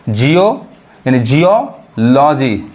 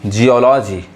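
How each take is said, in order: First: Slow Jio with a rise, then geology split as "jiyo... loji"; slow teaching breakdown of geology; syllable by syllable. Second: Said in the usual way. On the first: Shown as a demonstration. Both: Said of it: "ईओ sound पढ़ाता है".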